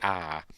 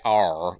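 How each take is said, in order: First: The R is soft, Australian-style. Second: The R is strongly pronounced, American-style.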